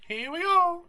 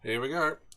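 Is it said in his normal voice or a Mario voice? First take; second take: Mario voice; normal voice. First: It is said in a Mario impression voice. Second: It is said in his normal voice.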